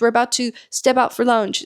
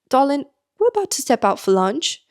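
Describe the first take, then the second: First: It is said in the speaker's normal accent. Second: It is said in an imitated local accent.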